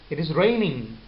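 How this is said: The pitch rises at the end. It is a question. "so in the end the sound is going upward"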